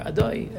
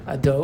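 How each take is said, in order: First: The last vowel glides into an oi sound. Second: The last vowel is a plain o sound. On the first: "So it's either o or oi" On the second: "So it's either o or oi"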